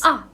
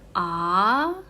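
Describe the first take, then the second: First: The pitch falls sharply from high to low. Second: The pitch rises from low to high. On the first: "from highest point sharply going down" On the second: "The second tones is from low to up"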